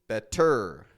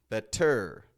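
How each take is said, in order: The two takes are said the same way.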